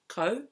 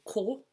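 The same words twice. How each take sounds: First: The word has an anglicized English pronunciation. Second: The word has a native Māori pronunciation. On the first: The speaker calls it wrong. "instead of say ko" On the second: The speaker calls it right. "the harder it is to say ko"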